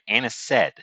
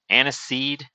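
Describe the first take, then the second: First: The word ends with a short 'sed' sound. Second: The word ends with a long 'seed' sound. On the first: "instead of pronouncing it as seed, we're pronouncing it anised" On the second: "I've been calling it anise, but specifically anise seed"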